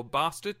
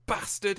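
First: "bastard" with a long southern English A; southern-style "bastard", long drawn first vowel; regional UK pronunciation. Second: "bastard" with a short northern English A; northern-style "bastard", short first vowel; regional UK pronunciation. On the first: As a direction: say "bastard" as "bah-stard". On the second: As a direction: say "bastard" with the A of "cat". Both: Shown as a demonstration. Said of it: "depending on which part of the U K you're from".

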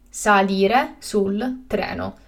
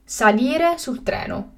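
First: Slow and carefully spaced; slow, clear repetition. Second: Said in the usual way. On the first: Shown as a demonstration. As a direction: say it again slowly for learners. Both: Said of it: "teacher repeats the word twice".

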